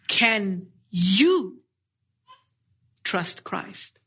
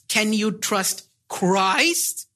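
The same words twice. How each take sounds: First: The stress is on you. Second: The stress is on Christ.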